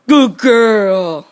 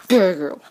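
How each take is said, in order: First: Firmer, louder praise. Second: Said in the usual way. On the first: Real, not acted. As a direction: say it out loud to the dog. Praising the dog twice.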